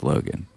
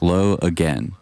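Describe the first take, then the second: First: The name sounds joined, like plain Logan. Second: The name sounds split, like low again. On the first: The speaker calls it right. "I think his name's Logan" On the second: The speaker calls it wrong. "I always say it like that"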